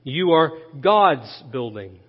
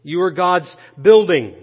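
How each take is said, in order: First: Low, measured line weighting "God's"; deliberate recap leaning on "God's"; stress on GOD'S. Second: "building" punched loud at the end; emphasize the last word, "building", with a falling finish; stress on BUILDING. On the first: Real, not acted. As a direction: set "God's" apart, then fall away. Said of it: "The third thing to notice". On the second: Shown as a demonstration. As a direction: hold off, then hit "building". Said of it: "just emphasize the word building".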